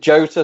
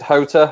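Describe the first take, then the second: First: The name starts with a J sound. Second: The name starts with an H sound. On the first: "Some people pronounce it Jota" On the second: "some people pronounce it Hota"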